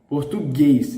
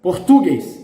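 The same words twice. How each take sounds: First: The stress is on the last syllable. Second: The stress is on the second-to-last syllable. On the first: The speaker calls it right. "the stress in the, is in the last one" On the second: The speaker calls it wrong. "Reading with the stressed syllable in the penultimate"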